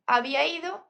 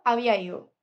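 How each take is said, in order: First: Said in the usual way. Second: Había ido said as había ío, d dropped; reduced Andalusian form. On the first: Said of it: "en vez de decir había ido". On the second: Shown as a demonstration. Teacher shows the reduced Andalusian verb form. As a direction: run había ido together without the d. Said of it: "en vez de decir".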